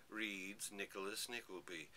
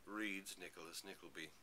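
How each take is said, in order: Both takes have the same delivery.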